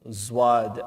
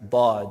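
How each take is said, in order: First: The letter name is said with an Urdu z sound. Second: The letter name is said with an Arabic emphatic d. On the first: The speaker calls it wrong. "those letters are not Arabic letters. Those maybe in Urdu" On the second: The speaker calls it right. "but in Arabic it's"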